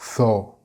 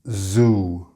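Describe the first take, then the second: First: It begins with a non-buzzing, different sound. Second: It begins with a buzzing z sound. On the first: The speaker calls it wrong. "not tho" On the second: The speaker calls it right. "we say zoo"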